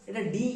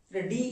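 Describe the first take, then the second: Both takes have the same delivery.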